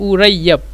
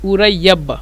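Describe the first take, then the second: Both takes have the same delivery.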